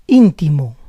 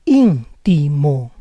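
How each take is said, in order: First: Said in the usual way. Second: Íntimo split as ÍN-ti-mo; syllable by syllable. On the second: Shown as a demonstration. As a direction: say Íntimo in parts, stressing ÍN. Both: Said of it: "try to understand the rules".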